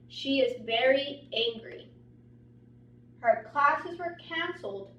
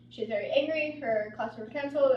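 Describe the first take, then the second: First: It stops at the period, with varied intonation. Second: It runs on without pauses, in flat intonation. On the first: The speaker calls it right. "when I read it with the correct intonation" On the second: The speaker calls it wrong. "With no pause and no intonation"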